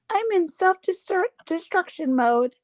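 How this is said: The voice sounds sweet and soft. The speaker calls it wrong. "you're making her sound too sweet"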